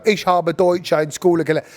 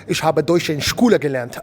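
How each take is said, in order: First: German said in a flat English accent, "Ich habe Deutsch in Schule gelernt" with no German sounds; half-hearted English-accented German. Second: Committed German pronunciation, "Ich habe Deutsch in Schule gelernt" with throaty ch and rolled vowels; full German accent. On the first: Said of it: "You can't go". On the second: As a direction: get into character, proper German accent. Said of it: "You gotta go for it". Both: Shown as a demonstration.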